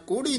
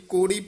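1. ਇਹ ਸ਼ਬਦ ਕੱਸ ਕੇ ਅਤੇ ਸਖ਼ਤੀ ਨਾਲ ਬੋਲਿਆ ਜਾਂਦਾ ਹੈ। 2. ਇਹ ਸ਼ਬਦ ਢਿੱਲੇ ਅਤੇ ਹਲਕੇ ਢੰਗ ਨਾਲ ਬੋਲਿਆ ਜਾਂਦਾ ਹੈ। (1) "ਕੋੜੀ ਨਹੀਂ ਕਹਿਣਾ ਹੈ" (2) "ਕੋੜੀ ਪੁੱਲਾ ਹੀ ਬੋਲਣਾ"

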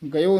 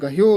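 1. ਪਹਿਲੇ ਸੁਰ ਤੋਂ ਬਾਅਦ h ਦੀ ਕੋਈ ਆਵਾਜ਼ ਸੁਣਾਈ ਨਹੀਂ ਦਿੰਦੀ। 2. ਪਹਿਲੇ ਸੁਰ ਤੋਂ ਬਾਅਦ h ਦੀ ਆਵਾਜ਼ ਸੁਣਾਈ ਦਿੰਦੀ ਹੈ। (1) "ਗਇਓ ਨਹੀਂ ਕਹਿਣਾ ਹੈ" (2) "ਇਸ ਕਰਕੇ ਗਹਿਓ ਉਚਾਰਨ ਕਰਨਾ ਹੈ"

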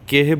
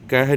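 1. ਪਹਿਲਾ ਸਵਰ 'e' ਹੈ। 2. ਪਹਿਲਾ ਸਵਰ ਛੋਟਾ 'a' ਹੈ। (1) "ਕੇਹੇ ਬੋਲਣਾ" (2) "ਇਹਨੂੰ ਕਹਿ ਨਹੀਂ ਕਹਿਣਾ"

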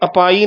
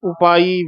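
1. ਸ਼ਬਦ ਇੱਕ 'a' ਸਵਰ ਨਾਲ ਸ਼ੁਰੂ ਹੁੰਦਾ ਹੈ। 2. ਸ਼ਬਦ ਇੱਕ 'u' ਸਵਰ ਨਾਲ ਸ਼ੁਰੂ ਹੁੰਦਾ ਹੈ। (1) "ਇਹ ਕਿਤੇ ਅਪਾਈ ਨਾ ਬੋਲਿਆ ਜਾਵੇ ਐੜੇ ਦੇ ਨਾਲ" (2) "ਉਪਾਈ ਵੇਖਾ"

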